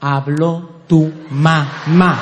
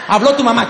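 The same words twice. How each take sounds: First: Habló tu mamá said very slowly, lower, each word laid down; slow and calm. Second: Habló tu mamá blurted fast and a bit higher; rushed. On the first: Shown as a demonstration. Showing the ladies how to tell a husband Habló tu mamá, slow and calm. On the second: Acted. Wife blurts Habló tu mamá at the husband, hurried. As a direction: fire off Habló tu mamá in one quick breath. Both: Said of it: "Al hombre se le habla así".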